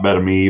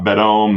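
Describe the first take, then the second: First: The name ends with an 'ah-mee' sound. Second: The name ends with a long 'ohm' sound. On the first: "not Bedami" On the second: "not Bedome"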